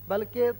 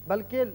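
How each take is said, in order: Both takes have the same delivery.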